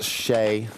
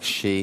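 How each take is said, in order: First: The vowel sounds like the one in 'day'. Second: The vowel sounds like the one in 'see'. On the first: The speaker calls it right. "it is pronounced Shay" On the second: The speaker calls it wrong. "unlike she, as I said it"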